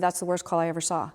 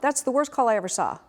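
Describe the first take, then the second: First: It is said quietly. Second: It is shouted loudly.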